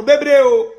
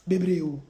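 First: Louder, drawn-out stress on bebree; loud and emphatic; emphatic exclamation. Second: Quieter, lower repeat; hushed, low afterthought; soft echo. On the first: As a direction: call it out forcefully. Emphatic exclamation, then echoed softly. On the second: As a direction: let it drop right down. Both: Real, not acted.

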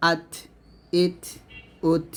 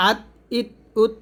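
First: আত, ইত, উত with an audible puff after each T; breath released. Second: আত, ইত, উত with the T stopped dead, no puff; no breath released. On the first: Teacher showing students the right আত, ইত, উত, breath released. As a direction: let air out on the final T of আত, ইত, উত. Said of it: "বলবেন". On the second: Teacher showing the mistake in আত, ইত, উত, no breath released. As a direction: cut off the T of আত, ইত, উত without air. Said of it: "এরকম উচ্চারণ করবেন না". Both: Shown as a demonstration.

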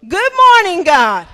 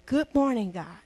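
First: Good morning God called out loud; proclaimed greeting. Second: Low sleepy murmur, just woken; barely awake, eye half open; groggy morning mumble. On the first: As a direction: announce it to the whole church. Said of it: "Say it with me". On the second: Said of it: "First thing". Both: Shown as a demonstration.

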